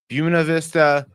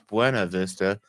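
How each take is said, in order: First: It is pronounced the way locals say it. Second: It is pronounced the way outsiders say it. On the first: Someone from the area said it. The speaker calls it right. "that's not how we say it" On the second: Someone not from the area said it. The speaker calls it wrong. "everyone that's not from here says it's Buena Vista"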